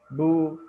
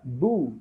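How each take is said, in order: First: The vowel is said with weakly rounded lips. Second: The vowel is said with fully rounded lips. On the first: The speaker calls it wrong. "Jadi bukan hanya bu, tu, ya, bukan begitu" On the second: The speaker calls it right. "kita monyongkan kedua bibir dengan monyong yang sempurna"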